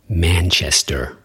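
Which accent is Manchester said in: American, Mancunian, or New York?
American. It has a general American accent with a final R. "guy from the United States who doesn't sound like he's from the East Coast would say"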